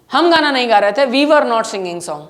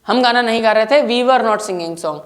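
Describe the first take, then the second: No difference in how they are said.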